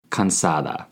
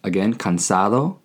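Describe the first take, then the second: First: Cansada with a clear final A; feminine ending. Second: Cansado with a clear final O; masculine ending. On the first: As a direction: end cansada on an open A sound. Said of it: "with an A at the end if you are a woman". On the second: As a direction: end cansado on a round O sound. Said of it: "with an O at the end if you are a man". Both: Shown as a demonstration.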